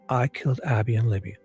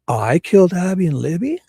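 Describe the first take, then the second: First: It is said as a flat statement, falling. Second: It is said as a rebutting question, rising.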